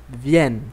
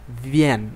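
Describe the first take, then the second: The two takes are said the same way.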